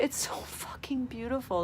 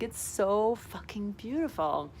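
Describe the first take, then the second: First: Whisper. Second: Slow. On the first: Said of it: "Like, it's so fucking beautiful". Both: Shown as a demonstration.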